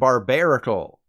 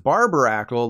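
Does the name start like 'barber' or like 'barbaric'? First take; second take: barbaric; barber. First: The first part sounds like 'barbaric'. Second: The first part sounds like 'barber'. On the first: The speaker calls it right. "it's a barbaric barnacle" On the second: The speaker calls it wrong. "like someone who cuts your hair"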